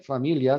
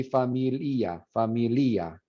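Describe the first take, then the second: First: Said in the usual way. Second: "familia" as fa-mi-LI-a, stress on the i. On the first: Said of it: "if you accented the I". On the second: Shown as a demonstration. Teacher demoing the wrong stress to students, stressed i. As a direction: split the ia into two syllables in "familia". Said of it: "if you accented the I in fa-, familia".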